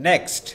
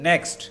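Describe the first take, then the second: The two takes are said the same way.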